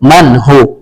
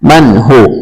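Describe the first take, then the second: Both takes have the same delivery.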